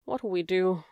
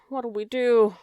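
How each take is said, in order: First: Despairing question, still contained; wailing. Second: Louder, higher wail. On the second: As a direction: let the despair break out. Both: Acted. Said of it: "wailed Cook".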